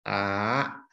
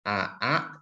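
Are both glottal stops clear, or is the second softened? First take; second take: softened; both clear. First: The second glottal stop is softened into one long vowel. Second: Two separate vowels each start with a clear glottal stop. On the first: The speaker calls it right. "diringankan, dipanjangkan" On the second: The speaker calls it wrong. "Bukan a a"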